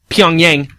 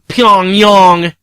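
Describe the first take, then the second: First: It is pronounced in an anglicized way. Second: It is pronounced in a native-sounding way. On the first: This is how it has always been said in the West. "we've been told that it's Pyongyang" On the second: The speaker wants to sound like an expert. "now motherfuckers are starting to sound, you know, like Pyongyang"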